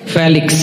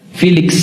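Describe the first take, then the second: First: The name is said in a plain Indonesian way. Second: The name is said with an American accent. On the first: This is how the name is said at home. "Nama saya siapa?" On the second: This is how Americans would call him. "orang Amerika manggil saya apa?"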